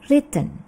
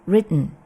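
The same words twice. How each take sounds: First: The middle T is pronounced clearly. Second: The middle T is quick and barely heard. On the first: "British English" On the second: "American English"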